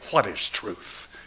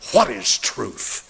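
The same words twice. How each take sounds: First: It is said in a neutral, plain tone. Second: It is said with bitter, scornful vitriol.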